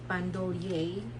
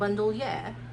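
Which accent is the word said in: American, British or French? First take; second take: French; British. First: It is said with a French accent. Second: It is said with a British accent. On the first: "if you pronounce it in French" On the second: "if you will pronounce it in British accent"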